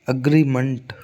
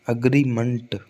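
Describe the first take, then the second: The two takes are said the same way.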